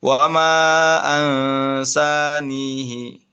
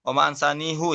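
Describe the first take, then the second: First: Ansanihi slow, ending on "hi" with kasrah. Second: Ansanihu ending with a rounded "hu"; Hafs reading. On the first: Teacher contrasts it with Hafs, reading with kasrah. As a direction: close on a clear "hi". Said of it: "dengan kasroh". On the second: Teacher gives the Hafs reading for contrast. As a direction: end ansanihu on "hu". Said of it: "Kalau misalkan di Hafaz apa?". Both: Shown as a demonstration.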